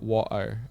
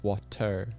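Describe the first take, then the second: First: The t in the middle is soft, not crisp. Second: The t in the middle is crisp and clear. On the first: The speaker calls it wrong. "it's not water" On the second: The speaker calls it right. "Like t t t t t water"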